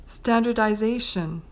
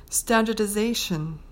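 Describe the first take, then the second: The two takes are said the same way.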